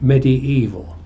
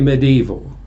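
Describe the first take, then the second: First: The vowel sound after the d is kept. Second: The vowel sound after the d is dropped. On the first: The speaker calls it right. "you keep the I of medium" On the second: The speaker calls it wrong. "you don't say medieval"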